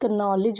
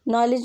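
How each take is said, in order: First: The initial k sound is pronounced. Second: The initial k sound is silent. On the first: The speaker calls it wrong. "कुछ बच्चे उसे नॉलेज भी पढ़ते हैं" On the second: The speaker calls it right. "नॉलेज में के silent होता है"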